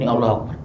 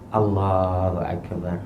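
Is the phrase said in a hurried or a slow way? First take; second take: hurried; slow. First: It is said quickly and clipped. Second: It is said slowly and calmly. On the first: The prayer is rushed. The speaker calls it wrong. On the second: The prayer is performed without rushing. The speaker calls it right.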